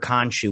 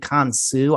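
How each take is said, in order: First: The middle consonant is an 'sh' sound. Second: The middle consonant is an 's' sound. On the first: This is the comic book form of the name. "I don't know why they added the H in the comic books" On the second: This is the original Egyptian form of the name. "in Egyptian it's actually Khonsu"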